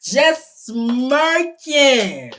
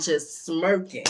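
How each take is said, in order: First: "Just smirking" stretched very slowly; drawn-out emphasis. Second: Said in the usual way. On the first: Real, not acted. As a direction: drag out "Just smirking" for indignant effect. Repeated for emphasis.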